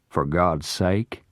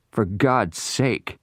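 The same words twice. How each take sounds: First: Slow, sneering question that throws the words back; mocking echo. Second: Slow, higher, pleading cry; trapped man begging, higher and slow; desperate plea. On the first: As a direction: echo his plea with scorn. Parker mockingly echoes the plea. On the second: Acted. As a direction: beg for mercy, drawn out. Noah begs trapped in the smoke.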